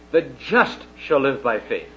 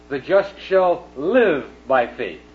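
First: The word just carries the main stress. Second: The word live carries the main stress. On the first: The point is about being made righteous. "the emphasis is on the word just" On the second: The point is about how one lives. "on living"

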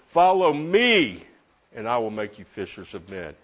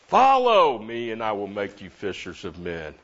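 First: The word me carries the main stress. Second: The word follow carries the main stress. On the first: The focus is on whom to follow. "Who have I been following?" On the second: The focus is on the act of following. "doesn't that make you think about following?"

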